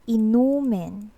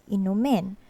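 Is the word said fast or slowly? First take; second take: slowly; fast. First: The word is said slowly. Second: The word is said quickly. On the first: It is a noun meaning alcoholic beverages. "say it more like in a slow pacing" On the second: It is a verb meaning to drink something. "We pronounce it in a fast way"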